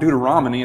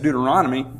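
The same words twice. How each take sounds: First: The word is said with its sounds mangled. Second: The word is said with its standard sounds. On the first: This is how a student with dyslexia says it. The speaker calls it wrong. "no, it's not Deuteronomy" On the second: This is the correction the students were given. The speaker calls it right. "it's Deuteronomy"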